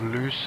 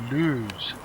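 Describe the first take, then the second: First: The word does not rhyme with booze. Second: The word rhymes with booze. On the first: The speaker calls it wrong. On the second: The speaker calls it right.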